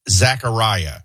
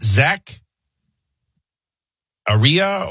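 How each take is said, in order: First: Zachariah said with an EYE sound, zack-uh-RYE-uh; his own pronunciation. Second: Zach Aria broken up, zack, then uh-REE-uh, higher; questioning zack-uh-REE-uh for Zach Aria; alternative pronunciation. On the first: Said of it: "I would pronounce this". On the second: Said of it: "how are they pronouncing". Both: Shown as a demonstration.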